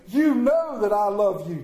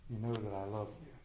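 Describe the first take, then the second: First: Loud, high declaration of love; brash Peter. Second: Soft, low, subdued answer; quietly wounded, voice dropped; hurt Peter. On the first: Peter's first answer to Jesus, brash and loud. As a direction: proclaim it boldly, sure of yourself. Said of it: "He's all brash. The first statement". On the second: Peter answers the third asking, hurt and subdued. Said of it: "Peter was hurt". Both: Acted.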